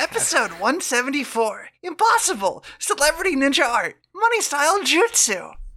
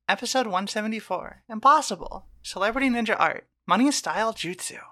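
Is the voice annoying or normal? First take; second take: annoying; normal. First: It is read in a put-on annoying voice. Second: It is read in a plain normal voice.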